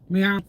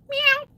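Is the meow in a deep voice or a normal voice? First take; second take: deep; normal. First: The meow is in a deep voice. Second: The meow is in an ordinary voice.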